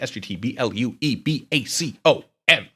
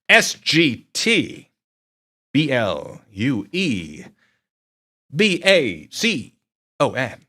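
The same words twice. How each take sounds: First: The letters are spelled out at a quicker pace. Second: The letters are spelled out at a slower pace.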